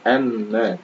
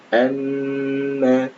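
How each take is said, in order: First: The doubled m sound is cut short. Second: The doubled m sound is held long. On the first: The speaker calls it wrong. "jangan amma" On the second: The speaker calls it right. "mim bertasydid maka ditahan dua harokat"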